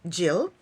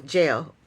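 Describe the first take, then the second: First: Said in the usual way. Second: Jill with a long ay vowel, Jail. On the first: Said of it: "when she says Jill's name". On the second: Retold or imitated. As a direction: imitate her saying Jill like Jail. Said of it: "when she says Jill's name, she goes".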